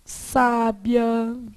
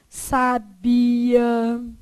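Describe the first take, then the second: First: The stress is on the first syllable. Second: The stress is on the middle syllable.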